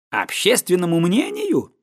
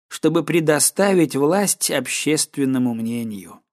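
First: Questioning repeat of the phrase; incredulous echo. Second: Said in the usual way. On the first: A narrator's reading. Another guest challenging faith in public opinion, incredulous echo. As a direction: throw the phrase back as a challenge.

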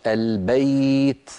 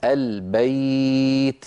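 First: البيت drawn out, the ay glide held; slow bayt. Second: البيت very slow, the ay glide held long; even slower bayt. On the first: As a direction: stretch the diphthong in البيت. (نطق البيت ببطء مع اللين) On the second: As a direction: drag the ay in البيت. (البيت ببطء أشد مع مد اللين) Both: Shown as a demonstration. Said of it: "مثل إيش".

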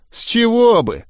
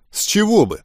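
First: High, exaggerated parroting; mocking mimicry. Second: Higher-pitched, quick objection; defensive retort. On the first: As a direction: parrot the question back in mockery. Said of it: "передразнил Гоблин". (передразнивая, высоким голосом) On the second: Original retort, later mimicked. (возражая, повышенным тоном) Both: A narrator's reading.

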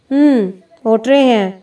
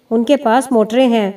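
First: Dismissive hum, then mocking repeat; scornful echo. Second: Said in the usual way. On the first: A narrator's reading. Old uncle to boastful holy man, scornful. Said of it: "تحقیر آمیز لہجے میں بولا". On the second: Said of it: "سائیں جلا فخر سے بولا".

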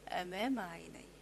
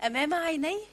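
First: تأكيد خافت. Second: سؤال مذهول. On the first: الجواب المؤكد بعد السؤال. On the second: سؤال ثم جواب بنفس الكلمات. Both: Acted.

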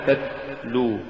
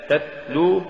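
First: تتلو said slowly with an s-like t; wrong s for t. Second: تتلو sung with a firm stopped t; careful تتلو with a strong ta; correct t sound. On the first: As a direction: demonstrate the error تتلو with a hissing s. (تتلو بالسين بدل التاء خطأً) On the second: (تتلو بتاء شديدة) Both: Shown as a demonstration. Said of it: "تقرأ لحنا".

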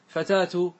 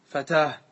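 First: فتاة said fatatu; connected form. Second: فتاة said fatah, ending on h; pause with ha. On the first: Teacher giving connected form, fatatu. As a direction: pronounce فتاة ending -tu. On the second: Teacher showing pausal form, fatah. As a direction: stop on فتاة with final h. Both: Shown as a demonstration. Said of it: "بالهاء".

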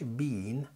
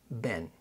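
First: "بين" with a long ee, like English "bean". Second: "بين" as a short "ben", with eh; American short vowel. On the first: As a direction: stretch the vowel of "بين" to bee-n. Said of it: "إي إي ما بتتنطقش". (بين بياء ممدودة) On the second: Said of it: "بتتنطق بين". (بين قصيرة زي الأمريكان) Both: Shown as a demonstration.

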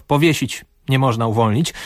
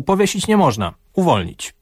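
First: "powiesić" stressed, short pause, then "nie można, uwolnić"; pause after "powiesić". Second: "nie" raised, "powiesić nie można" in one breath, pause before "uwolnić"; pause after "można". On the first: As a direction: break after "powiesić", so the sentence means hang him. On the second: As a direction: break after "można", so the sentence means set him free. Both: Shown as a demonstration. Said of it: "nie zawsze syntezator pamięta o przecinkach".

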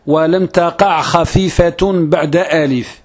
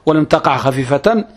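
First: Slow, measured "خفيفة" ending in -tun; careful slow recitation, "خفيفة" as khafifatun; correct verse wording. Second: Quicker "خفيفة" ending in -tan; misremembered verse, "خفيفة" given an -an ending; habitual faulty recitation. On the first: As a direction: recite slowly, giving "خفيفة" a nominative -un ending. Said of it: "ولكن الصحيح". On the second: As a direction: say "خفيفة" as khafifatan, at talking pace. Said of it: "أنطق بها هكذا". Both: Shown as a demonstration.

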